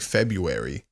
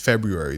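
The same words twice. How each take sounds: First: The first r is dropped entirely. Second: The first r is clearly pronounced. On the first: "They say February" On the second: "I'm trying to pronounce the R, but no one else does. No one in America says February"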